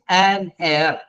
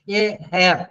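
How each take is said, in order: First: The word begins with a vowel, no h. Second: The word begins with an h sound. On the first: The speaker calls it right. "No, he is an air" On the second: The speaker calls it wrong. "H is silent. So don't say he is uh, a hair"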